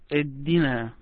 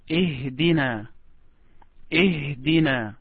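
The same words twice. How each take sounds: First: Ihdina with the h swallowed; pupil's mispronunciation. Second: Ihdina with a clearly sounded h; corrected pronunciation. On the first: Retold or imitated. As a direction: say Ihdina as 'edina', dropping the h. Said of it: "You said". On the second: Shown as a demonstration. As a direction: breathe out the h in Ihdina before the d. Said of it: "It is".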